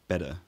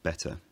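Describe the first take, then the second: First: The t is a quick tap. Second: The t is a full, crisp t. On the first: This is the modern upper-class accent. "a lot more tapping of the t sound" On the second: This is the older upper-class accent. "rather than"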